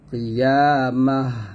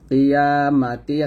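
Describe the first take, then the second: First: The word ends with a silent h sound. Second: The word ends with a t sound and vowel. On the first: The reader stops at the end of the verse. "থামলে হবে কিয়ামাহ" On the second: The reader carries on without stopping. "কিয়ামাতি আছে"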